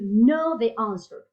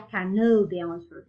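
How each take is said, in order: First: The K at the start is silent. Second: The K at the start is pronounced. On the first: The speaker calls it right. "No, you know the answer" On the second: The speaker calls it wrong. "You don't cannot say"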